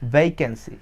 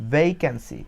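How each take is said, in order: Both takes have the same delivery.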